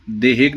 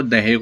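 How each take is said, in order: First: देहेक with a plain "de" opening; mispronunciation shown. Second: दहेक opened with the ऐ vowel, "dai-hik"; correct pronunciation. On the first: Teacher showing the faulty form, देहेक with plain "de". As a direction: say देहेक with a simple ए in the first syllable. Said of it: "देहेक नहीं होता, वो दहेक होता है". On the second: Teacher correcting students' word, दहेक said as "dai-hik". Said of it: "वो दहेक होता है". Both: Shown as a demonstration.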